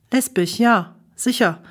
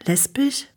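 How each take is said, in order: First: Lesbisch said flat with a firm falling ja; smug confirmation. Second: Rising, disbelieving echo of Lesbisch; shocked question. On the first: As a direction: confirm Lesbisch, ja with a settled downward tune. Brother confirms smugly. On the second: Shocked question back to brother. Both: A narrator's reading.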